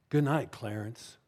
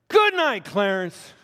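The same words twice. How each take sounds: First: The phrase is said in a much softer voice. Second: The phrase is said in a louder voice.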